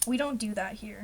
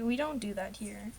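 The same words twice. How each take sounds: First: Said in the usual way. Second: A softer, whimpering we don't do that here; mock whimper. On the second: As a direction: pretend to be upset, half-crying. Repeated after sorry, softer.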